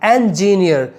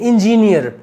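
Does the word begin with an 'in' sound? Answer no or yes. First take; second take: no; yes. First: The first syllable does not sound like 'in'. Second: The first syllable sounds like 'in'. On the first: The speaker calls it right. "इन में नहीं" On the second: The speaker calls it wrong. "हमारे यहाँ उसको लोग क्या कहते हैं"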